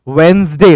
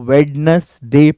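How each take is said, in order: First: The middle 'd' is silent, giving two syllables. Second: The middle 'd' is pronounced, giving three syllables. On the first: The speaker calls it right. "Actually ये वेंसडे होगा" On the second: The speaker calls it wrong. "बहुत सारे लोग इसको वेडनेसडे पढ़ते हैं, ये गलत है"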